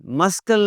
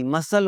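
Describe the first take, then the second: First: मस्कल with the k sounded; mispronounced C. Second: मसल with no k; only an s in the middle of मसल; silent C. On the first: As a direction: say मस्कल as mus-kul. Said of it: "मस्कल नहीं होता जी". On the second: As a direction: say मसल as mus-sul. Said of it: "मसल होता है". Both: Shown as a demonstration.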